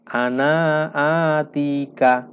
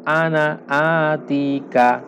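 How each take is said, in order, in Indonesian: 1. Vokal akhir pada ana dibaca panjang. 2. Vokal akhir pada ana dibaca pendek. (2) "Ana di sini dibaca pendek"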